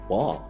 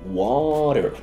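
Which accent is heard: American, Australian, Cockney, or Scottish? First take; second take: Scottish; American. First: It is said in a Scottish accent. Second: It is said in a North American accent.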